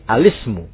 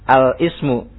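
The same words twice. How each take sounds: First: The l links straight into ismu, no glottal stop. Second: A glottal stop comes before the i of ismu. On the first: The speaker calls it right. "tapi al-ismu" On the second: The speaker calls it wrong. "jangan al-ismu ya. Salah gitu ya"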